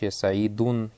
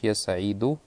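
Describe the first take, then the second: First: The name ends with an added n sound. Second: The name ends on a vowel without n. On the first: The speaker calls it wrong. "не говоришь я саидун" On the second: The speaker calls it right. "а говоришь я саиду"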